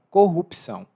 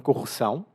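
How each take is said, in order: First: The P sound is clearly pronounced. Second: The P sound is silent. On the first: This is how it is said in Brazil. "aqui no Brasil, o P é bem pronunciado" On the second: This is how it is said in Portugal. "em Portugal, eles falam corrupção, o P é mudo"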